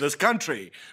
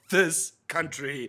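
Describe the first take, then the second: First: The two words run together without a break. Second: There is a break between the two words. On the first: The speaker calls it right. "It should have been this country" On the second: The speaker calls it wrong. "not this country"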